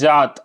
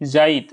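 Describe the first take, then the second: First: It is said as jaat, stressing the first sound. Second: It is said as jaait, with an inserted i vowel. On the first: This is the standard Hindi form. "यहाँ पे जोर हम लोग यहाँ पे देते हैं जात" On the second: This is the Nagpuri form. "जात को क्या बोलते हैं, जाइत"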